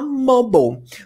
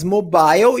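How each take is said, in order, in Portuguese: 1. É dita com sotaque americano. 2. É dita com sotaque britânico. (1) "o americano vai falar mobile" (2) "o britânico vai falar mais mobile"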